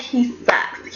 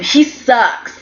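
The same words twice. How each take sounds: First: He sucks, dropped to a breathy whisper; a conspiratorial whispered jab; whispered aside. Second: Said in the usual way. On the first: Real, not acted. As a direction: lean in and whisper the put-down. Repeats the insult after a laugh.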